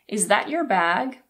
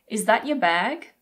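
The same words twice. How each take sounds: First: 'Your' is reduced with an R sound. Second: 'Your' is reduced with no R sound. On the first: "In American English, you always pronounce the R" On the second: "Let's first look at the British pronunciation. Your and your are often reduced to y"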